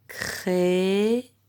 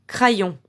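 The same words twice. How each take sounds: First: It sounds like krè-yon, with an è and y. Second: It sounds like kra-yon, with an a and y. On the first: The speaker calls it right. "l'un et l'autre" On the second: The speaker calls it wrong. "le Y on fait comme si c'était L"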